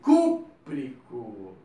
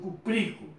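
First: The stress is on the first syllable. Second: The stress is on the second syllable. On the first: The speaker calls it right. "sempre vai ser proparoxítona" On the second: The speaker calls it wrong. "não é hidróxido cupríco"

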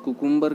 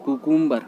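No difference in how they are said.

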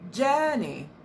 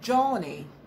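First: The first vowel is long, like in 'girl'. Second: The first vowel is short, like in 'hot'. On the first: The speaker calls it right. "You should say journey. That's the sound you have in girl" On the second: The speaker calls it wrong. "So don't say Johnny"

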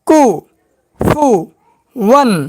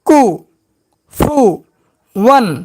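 Both takes have the same delivery.

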